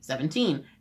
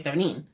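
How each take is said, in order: First: The T sound is clearly pronounced. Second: The T sound is hardly pronounced. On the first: This is how others usually say it. "you would say seventeen" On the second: This is how the speaker's family says it. "I say seventeen"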